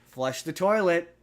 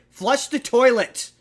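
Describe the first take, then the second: First: It is said in a calm, mild tone. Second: It is said in an irritated tone.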